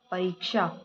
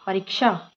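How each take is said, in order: First: "परीक्षा" with long "reek", softer; correct long i. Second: "परीक्षा" with short "rik"; wrong short i. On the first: Teacher reads the right form, long-i "परीक्षा". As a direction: stretch री in "परीक्षा". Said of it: "परीक्षा होता है". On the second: Teacher reads the wrong form, short-i "परीक्षा". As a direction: clip री in "परीक्षा". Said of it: "ना होके". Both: Shown as a demonstration.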